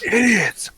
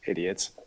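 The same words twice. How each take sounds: First: It is yelled out loudly. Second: It is muttered quietly under the breath.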